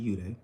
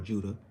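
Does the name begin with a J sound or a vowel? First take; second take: vowel; J sound. First: The name begins with a vowel sound. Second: The name begins with a J sound. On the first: The speaker calls it right. "that's correct pronunciation" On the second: The speaker calls it wrong. "what you would call Judah"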